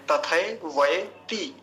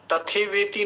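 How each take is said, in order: First: तथैवयति very slow, "ta-thai-vai-ti"; full ai vowels. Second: तथेवेति said "ta-the-ve-ti"; wrong e vowels. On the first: Teacher correcting a common error, slow full ai in तथैवयति. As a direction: draw out each ai in तथैवयति. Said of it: "इसमें भी दो मात्राएं हैं". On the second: Teacher showing what some people say, wrong e in तथेवेति. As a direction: run तथेवेति with simple e sounds. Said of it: "तथेवेति नहीं बोलेंगे". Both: Shown as a demonstration.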